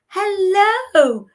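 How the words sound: It is said in a happy, cheerful voice. "How do you say hello when you're happy?"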